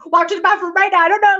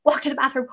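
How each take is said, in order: First: Higher, rising flustered command; urgent insistence. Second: Said in the usual way. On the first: Retold or imitated. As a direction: hustle a child away, acting out mild panic. Acted urgent order, repeated more insistently.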